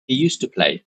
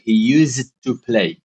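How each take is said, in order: First: The d in used is dropped. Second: The d in used is pronounced clearly. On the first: The speaker calls it right. "So we just say he used to play" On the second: The speaker calls it wrong. "you don't need to say D very clearly. Like he used to play. This is wrong"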